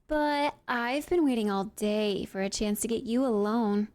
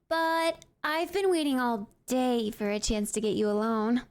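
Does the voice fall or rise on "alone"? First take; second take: fall; rise. First: The pitch falls on the final word. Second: The pitch rises on the final word. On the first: The speaker calls it right. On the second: The speaker calls it wrong.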